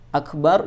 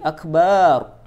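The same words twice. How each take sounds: First: The vowel after the b is short. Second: The vowel after the b is drawn out long. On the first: It means greatest. The speaker calls it right. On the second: It means a drum. The speaker calls it wrong.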